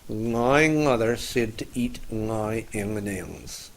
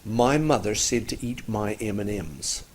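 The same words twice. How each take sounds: First: The m sounds are made far back in the throat. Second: The m sounds are made by closing the lips.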